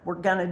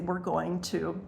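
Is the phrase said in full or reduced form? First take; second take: reduced; full. First: The words are run together into gonna. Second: Each word is articulated clearly and separately. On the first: The speaker calls it wrong. "rather than just saying gonna" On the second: The speaker calls it right. "I'd say we're going to"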